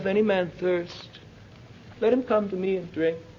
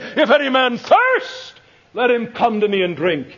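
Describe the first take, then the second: First: It is said in a quiet, mild voice. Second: It is cried out at full volume. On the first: It is a calm, ordinary statement. The speaker calls it wrong. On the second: It is forced out by deep feeling. The speaker calls it right.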